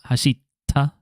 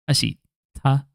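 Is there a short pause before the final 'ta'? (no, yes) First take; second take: yes; yes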